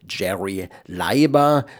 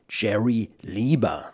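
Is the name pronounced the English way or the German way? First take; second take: German; English. First: The name is pronounced the German way. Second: The name is pronounced the English way. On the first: The speaker calls it wrong. "so sprechen das Deutsche aus" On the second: The speaker calls it right. "die englische Aussprache müsste natürlich heißen und heißt"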